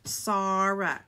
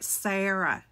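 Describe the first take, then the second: First: Sarah with an open ah, SAH-ruh; host's Sarah. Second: Sarah with a flat a as in cat, SAIR-uh; Sarah said the usual way, a like cat; wrong Sarah. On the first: Vlogger shows how the TV host says her name, open ah. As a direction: stretch the first vowel of Sarah to ah. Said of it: "She says Sarah". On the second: Vlogger shows viewers the name said the wrong way, flat a. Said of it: "she doesn't say it Sarah". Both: Shown as a demonstration.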